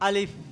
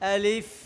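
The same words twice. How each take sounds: First: Air passes between both open lips at the end. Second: Upper teeth touch the lower lip at the end. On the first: The speaker calls it wrong. "ছাত্ররা ভুল উচ্চারণ করবে। ... তার দুই ঠোঁটের মাঝখান দিয়ে ... বাতাস বের করে দিবে।" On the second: The speaker calls it right. "উপরের দাঁত নিচের ঠোঁটের সাথে লাগবে। ... এটা হলো কি আলিফের শুদ্ধ উচ্চারণ।"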